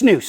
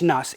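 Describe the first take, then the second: First: The vowel rhymes with moose. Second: The vowel does not rhyme with moose. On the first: The speaker calls it right. "It's pronounced like moose" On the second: The speaker calls it wrong. "people still think it's snus"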